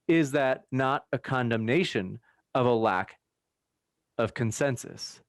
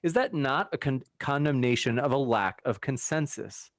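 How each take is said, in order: First: The question is read at a slower pace. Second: The question is read at a fast pace. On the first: The speaker calls it right. "Let me slow down" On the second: The speaker calls it wrong. "I was reading it fast"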